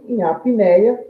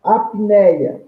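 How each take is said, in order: First: Apneia drawn out slowly, a-pi-nei-a, rising at the end; slow syllable demo. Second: Said in the usual way. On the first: Shown as a demonstration. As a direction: stretch apneia out to show its syllables. (apneia devagar, sílaba por sílaba, subindo no fim) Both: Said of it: "Uma única emissão de voz".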